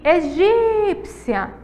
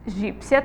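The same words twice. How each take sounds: First: Egípcia with a long, high GÍ; slow right down and hold the GÍ of egípcia; stress on GÍ. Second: Said in the usual way. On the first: Shown as a demonstration. Teacher showing the tonic syllable, egípcia with stretched GÍ. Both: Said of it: "temos aí uma sílaba tônica".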